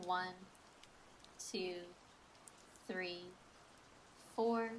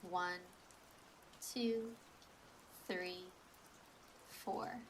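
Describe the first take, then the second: No difference in how they are said.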